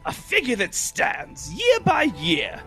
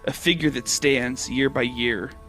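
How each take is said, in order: First: It is said in a put-on Cockney accent. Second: It is said in the speaker's normal accent.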